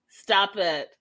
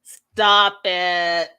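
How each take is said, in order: First: Said in the usual way. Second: Loud firm stop it. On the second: Real, not acted.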